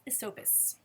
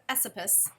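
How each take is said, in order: First: Esopus is said the way the speaker was taught. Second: Esopus is said the way the speaker assumed. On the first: This is how the speaker was told it is said. The speaker calls it right. "That's how you say it" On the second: This is how the speaker guessed it was said. The speaker calls it wrong. "I would have said Esopus, but nope"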